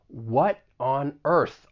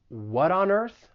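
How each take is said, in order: First: Each word is stressed separately, spoken slowly. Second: The words run together quickly, linked smoothly. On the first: The speaker is feeling strong emotion. "people may emphasize the individual words and possibly even speak slower, in which case you're not really going to link the words together" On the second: The speaker is talking casually. "they may say it a little faster, and in that case, we can link some of these words"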